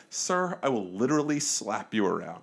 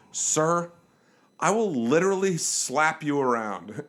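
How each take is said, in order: First: Measured, courteous warning; polite threat. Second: Slow, deliberate warning; teacher quieting class. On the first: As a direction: deliver the threat politely and evenly. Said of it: "like, I was polite". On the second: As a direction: firmly halt someone like a teacher, slowly. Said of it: "put my hand up like a teacher". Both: Retold or imitated.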